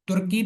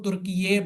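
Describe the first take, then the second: First: The name ends in a plain 'kee' sound. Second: The name ends with an added 'ye' sound. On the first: This is how the name used to be said. "पहले बोला जाता" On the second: This is how the name is said now. "अभी इसको तुर्की ये बोला जाता है"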